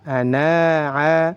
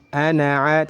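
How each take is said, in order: First: The final vowel is drawn out long. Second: The final vowel is short. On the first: The speaker calls it wrong. "tidak boleh dibaca" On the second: The speaker calls it right. "jadi harus dibaca pendek"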